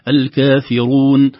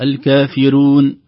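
First: "الكافرون" chanted slowly with a full, heavy ra; correct pronunciation. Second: "الكافرون" with a thin, light ra; wrong pronunciation. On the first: Teacher models the correct word, slow chant. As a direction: give the ra in "الكافرون" its full weight. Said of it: "لكن الصحيح أنها تكون". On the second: Teacher demonstrates the thin-ra mistake, chanted. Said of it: "تخرج الراء رقيقة". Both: Shown as a demonstration.

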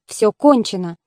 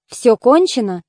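First: Said in the usual way. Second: "Всё кончено" as a question, pitch peaking on "кончено". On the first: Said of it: "сказал счастливчик". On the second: A narrator's reading. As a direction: ask "Всё кончено", lifting the stressed syllable of "кончено". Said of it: "спросил он". (вопрос «Всё кончено?» с подъёмом на ударном слоге «кончено»)

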